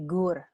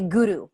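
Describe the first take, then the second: First: The word is said with one syllable. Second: The word is said with two syllables. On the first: The speaker calls it right. "but it's actually Gur" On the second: The speaker calls it wrong. "we always want to say Guru"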